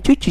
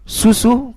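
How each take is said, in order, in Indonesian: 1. Kata itu diawali dengan bunyi ch. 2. Kata itu diawali dengan bunyi s yang jelas. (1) "Jangan bilang cucu" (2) "katakan susu"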